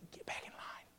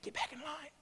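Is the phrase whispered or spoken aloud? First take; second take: whispered; aloud. First: The phrase is said in a soft whisper. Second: The phrase is said in a full voice. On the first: A gentle reminder to return. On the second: A firmer call to return.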